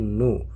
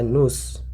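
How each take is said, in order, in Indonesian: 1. Kata ini berakhir pada vokal tanpa s. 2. Kata ini diakhiri dengan bunyi s yang terdengar. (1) "tapi nu" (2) "tidak dibaca nus"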